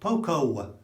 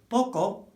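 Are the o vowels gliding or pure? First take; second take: gliding; pure. First: The o vowels glide like English 'oh'. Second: The o vowels are short and pure. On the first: The speaker calls it wrong. "won't be understood" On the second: The speaker calls it right. "will be understood"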